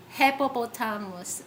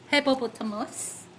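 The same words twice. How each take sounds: The two takes are said the same way.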